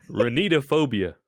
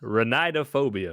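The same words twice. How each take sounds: First: Ranitophobia with "ee" in the second syllable, ruh-NEE-duh; trial pronunciation. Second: Ranidophobia with "eye" in the second syllable, ruh-NYE-duh; alternative pronunciation. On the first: Trying out pronunciations of the word. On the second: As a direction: say the "ni" of Ranidophobia as "nigh". Trying another pronunciation of the word. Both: Shown as a demonstration.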